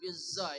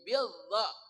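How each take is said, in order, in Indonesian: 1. Konsonannya adalah bunyi 'z' yang bergetar. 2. Konsonannya adalah bunyi 'dh' yang lembut. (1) "jangan bizza ya" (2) "Dha itu dari ujung lidah bersama ujung gigi seri atas"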